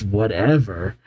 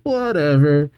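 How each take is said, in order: First: Indignant echo. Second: Dismissive whatever. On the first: Crystal throws the word back. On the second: Gold brushing off his mistake. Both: Acted.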